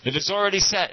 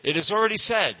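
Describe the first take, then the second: First: Raised high and firm, mock booming; high, loud pronouncement; loud declaration. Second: High, loud and emphatic, imitating the guru; retelling the guru's loud proclamation; loud declaration. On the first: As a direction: proclaim it like the guru on the dais. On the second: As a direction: announce it with full authority. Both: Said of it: "and he, loud".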